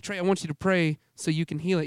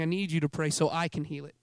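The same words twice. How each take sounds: First: "want" and "you" picked out as the mistaken version; mild emphasis on "want", then on "you"; stress on want and you. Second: "need" and "I" picked out as the true version; firm emphasis on "need", then on "I"; stress on need and I. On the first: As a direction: lean on "want" and the second "you". Contrasts wanting with needing. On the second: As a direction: lean on "need" and the second "I". Contrasts needing with wanting. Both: Retold or imitated.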